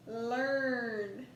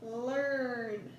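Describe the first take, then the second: First: "Learn" drawn out slowly with a rising end; stretched learn. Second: "Learn" drawn out slowly with a falling end; stretched again. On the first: Teacher stretching a word for the class, slow and rising. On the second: Teacher retries the stretched word for students, slow and falling. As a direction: stretch "Learn" once more and let it fall. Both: Shown as a demonstration. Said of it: "Let's try that again".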